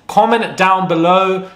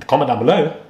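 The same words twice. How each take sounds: First: "Comment down below" stretched out slowly; drawn-out statement. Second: "Comment down below" rising at the end as a question; questioning tune. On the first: Repeats the sign-off as statement. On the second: Repeats the sign-off as question. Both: Real, not acted.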